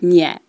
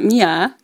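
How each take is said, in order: First: The two vowels meet with no glide. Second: A y glide joins the two vowels. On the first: The speaker calls it right. "With no Y sound in there" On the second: The speaker calls it wrong. "It's not Mia"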